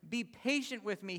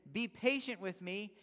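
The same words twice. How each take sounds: First: Raised, urgent plea; a lightly acted servant begging; mild begging. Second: Slow, drawn-out plea on his knees; slow pleading. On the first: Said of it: "he begged". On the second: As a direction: beg slowly and earnestly. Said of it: "fell to his knees and begged him". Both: A narrator's reading.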